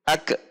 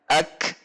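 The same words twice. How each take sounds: First: The final k bounces with a short echoing vowel. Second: The final k ends with air trailing out, no bounce. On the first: The speaker calls it wrong. "Ada pantulan ketika kaf sukun" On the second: The speaker calls it right. "Seharusnya tidak ada pantulan namun ada sisa udara yang mengalir"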